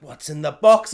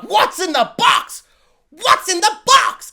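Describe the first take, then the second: First: Said in the usual way. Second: Much higher, much louder, slow desperate shout; slow, anguished movie shout of "What's in the box?"; Brad Pitt in Seven. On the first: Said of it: "they're like". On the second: Retold or imitated. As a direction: yell it like a man begging to know what's inside. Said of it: "like I'm Brad Pitt and Seven being like".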